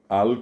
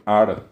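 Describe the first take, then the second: First: The word ends with an L sound. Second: The word ends with an R sound. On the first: This is the standard form. "al con L" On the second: This is how many people actually say it. "la gente suele decir ar"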